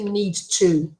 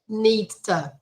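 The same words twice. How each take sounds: First: The vowel in 'to' is a full vowel. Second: The vowel in 'to' is a reduced schwa. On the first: The speaker calls it wrong. "We don't say this" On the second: The speaker calls it right. "what we call the schwa sound"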